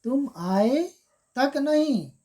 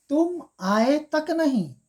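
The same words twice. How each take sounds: First: तक नहीं raised; तक नहीं higher, falling; stress on तक. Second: Slow and higher, तक नहीं pressed; तक said slowly and high; stress on तक. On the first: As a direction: press तक नहीं. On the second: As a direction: drag out तुम आए तक नहीं with reproach. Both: Shown as a demonstration. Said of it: "आए नहीं बोल रहा है".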